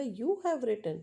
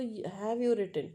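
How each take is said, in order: First: "You have written" lifted a little, falling after "have"; question by tone. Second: "Have you written?" very slow, falling on "you"; drawn-out proper question "Have you written?"; proper question tune. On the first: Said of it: "tone के कारण question बन गया". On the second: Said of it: "proper question तो". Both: Shown as a demonstration.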